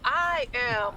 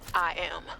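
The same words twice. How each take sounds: First: It is said firmly, with conviction. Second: It is said timidly, without conviction.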